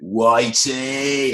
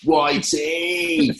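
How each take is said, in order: First: Drawn-out greeting. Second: Mock Clive doing the cool handshake greeting; cool greeting, higher. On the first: Retold or imitated. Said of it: "he went". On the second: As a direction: stretch Whitey out high and rising like a cool mate. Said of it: "went like this".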